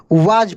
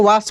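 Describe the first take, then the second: First: वाज said with a buzzing z at the end; correct pronunciation. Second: वास said with a plain hissing s at the end; wrong pronunciation. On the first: Teacher to students, correcting the reading: वाज with a voiced z. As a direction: give the right reading: वाज ending on a voiced z. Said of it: "वाज पढ़ेंगे". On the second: Teacher to students, showing the wrong reading: वास with a hard s. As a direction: show the mistake: वास ending on a sharp s sound. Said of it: "ये नहीं कि W A S को वास पढ़ेंगे, गलत हो जाएगा". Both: Shown as a demonstration.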